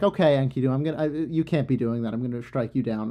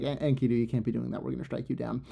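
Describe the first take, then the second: First: Mildly stern warning; lightly voiced threat from Ishtar; goddess threatening. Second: Softer, hushed group verdict; gods' verdict. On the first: Ishtar warns Enkidu after the bull's head, mild threat. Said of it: "and she's like". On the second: Retold or imitated. The assembled gods pronounce Enkidu's doom, hushed. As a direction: murmur the sentence low and soft. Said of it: "They were like".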